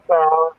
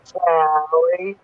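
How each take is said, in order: First: Words blocked by bulky dentures; cramped mouth, dentures in; loose dentures. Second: Talking around a mouthful of dentures; loose dentures. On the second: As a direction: say it with no room in the mouth. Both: Shown as a demonstration. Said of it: "this is what it sounded like".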